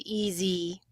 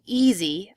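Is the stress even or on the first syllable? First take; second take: even; first syllable. First: Both syllables get equal length and stress. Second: The stress falls clearly on the first syllable. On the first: The speaker calls it wrong. "I have a tendency to give equal syllable stress" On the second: The speaker calls it right. "instead of saying easy"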